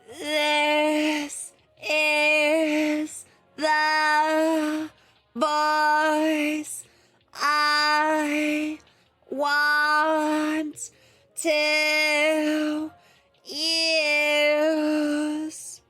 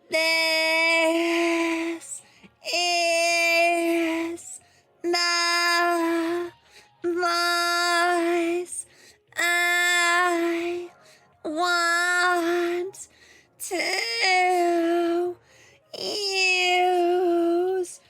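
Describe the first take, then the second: First: The voice is less nasal and less squeaky. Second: The voice is more nasal and more squeaky.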